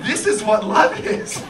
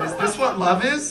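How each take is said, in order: First: Slow, higher, louder joyful declaration; elated realization. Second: "Is this what love is" rising into a question; wondering question. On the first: Husband suddenly understanding love, slow elated declaration. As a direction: declare it with growing wonder. Answers himself, delighted realization. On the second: Husband wondering after his wife's insult, tentative rising question. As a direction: ask "Is this what love is" tentatively, ending upward. Asks himself, dawning realization. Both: Acted.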